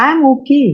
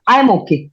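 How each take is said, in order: First: It is said in a calm tone. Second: It is said in an angry tone.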